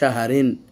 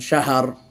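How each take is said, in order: First: The word ends with an 'rin' sound. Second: The word ends on a bare 'r' sound. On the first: The reading runs on into the next word. "রদুই জের রিন" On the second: The reading stops at this word. "ওয়াকফের জন্য আমরা তানবিনকে ফেলে দিলাম"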